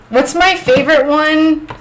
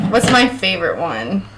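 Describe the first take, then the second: First: High questioning. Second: Said in the usual way. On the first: Real, not acted. Answering a question about British names, high and questioning. Repeats chat's question, then ponders it.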